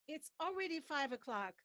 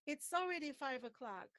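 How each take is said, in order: The two takes are said the same way.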